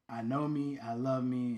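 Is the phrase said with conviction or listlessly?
conviction. It is said firmly, with conviction. This is how the mantra is meant to be said. The speaker calls it right. "say this"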